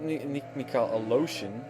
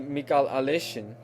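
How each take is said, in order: First: The surname's second vowel sounds like 'o'. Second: The surname's second vowel sounds like 'e'. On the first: The speaker calls it wrong. "Not Mikhail Aloshin" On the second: The speaker calls it right. "I'm expecting it to be Mikhail Aleshin"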